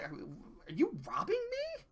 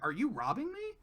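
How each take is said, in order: First: It sounds incredulous and disbelieving. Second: It sounds like a sincere, curious question.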